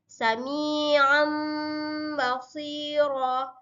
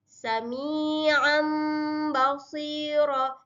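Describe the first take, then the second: No difference in how they are said.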